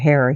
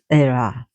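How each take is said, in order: First: The name begins with an audible H sound. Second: The name begins without any H sound. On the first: "we pronounce her Hera here" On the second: "they don't pronounce the H in Greek, so it's Hera"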